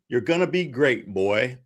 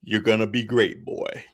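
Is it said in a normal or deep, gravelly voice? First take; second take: normal; deep, gravelly. First: It is said in a normal voice. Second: It is said in a deep, Kratos-like voice.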